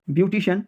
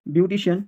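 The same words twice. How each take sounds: The two takes are said the same way.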